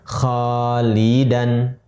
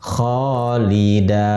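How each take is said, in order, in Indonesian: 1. Kata ini berakhir dengan bunyi n. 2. Kata ini berakhir dengan vokal panjang, tanpa n.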